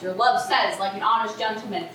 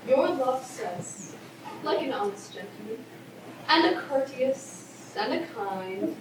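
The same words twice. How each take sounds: First: Lower, quick mock of the nurse; mocking imitation. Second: Teasing delay. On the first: Juliet throwing the nurse's reply back at her, mockingly. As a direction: parrot her words back, indignant. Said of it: "How awfully thou repliest". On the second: Acted. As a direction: tease out the message unhurriedly. Nurse teasingly withholds Romeo's message.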